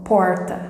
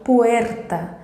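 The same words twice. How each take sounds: First: "porta" with a Goiás retroflex R; Goiás accent. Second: "puerta" with the tongue trembling on the R; trilled R. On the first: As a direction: imitate a Goiás countryside R in "porta". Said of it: "falada como o pessoal do Goiás". ("porta" com sotaque de Goiás, R retroflexo) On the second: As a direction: model "puerta" with a Spanish trilled R. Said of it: "Eu tenho que tremer a língua". ("puerta" com o R vibrado) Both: Shown as a demonstration.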